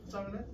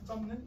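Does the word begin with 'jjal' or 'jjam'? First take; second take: jjal; jjam. First: The first syllable ends in an l sound. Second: The first syllable ends in an m sound. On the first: The speaker calls it right. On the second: The speaker calls it wrong.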